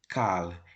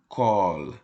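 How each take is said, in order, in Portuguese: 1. A vogal é pronunciada com som de a. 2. A vogal é pronunciada com som de o. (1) "Não vamos ler essa palavra como kal" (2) "e sim como kol"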